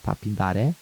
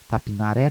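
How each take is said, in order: First: The name is said with a d sound. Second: The name is said without a d sound. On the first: This is the name's original form. "Mas o nome mesmo é Tapindaré" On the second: This is how the name is said locally. "a nossa pronúncia é Tapin, Tapinaré"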